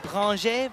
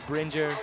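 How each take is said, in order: First: The name is said with a French pronunciation. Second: The name is said with an English pronunciation. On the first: "proper go French mode" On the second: "we're going to stick with Bringer"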